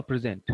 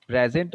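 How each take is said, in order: First: "present" said pri-ZENT, end-stressed; stress on second syllable. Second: "Present" said PREZ-ent, front-stressed; stress on first syllable. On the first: Teacher asking about the second word, second-syllable stress on "present". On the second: Teacher asking about the second word, first-syllable stress on "Present". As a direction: lean on PRE in "Present". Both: Shown as a demonstration. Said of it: "pronunciation is different".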